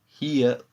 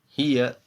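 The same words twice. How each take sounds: No difference in how they are said.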